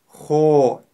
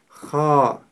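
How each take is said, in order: First: The lips are rounded, giving an o vowel. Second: The lips are not rounded, giving an a vowel. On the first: The speaker calls it wrong. "губы трубочкой, когда при произнесении которой получается звук о" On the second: The speaker calls it right. "Мы произносим его так"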